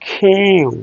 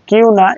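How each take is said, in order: First: "কিউ" with an aspirated k, stretched; long k-hyoo glide on "কিউ"; correct English Q. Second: Said in the usual way. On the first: Shown as a demonstration. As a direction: puff air into the k of "কিউ". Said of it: "এটা correct pronunciation".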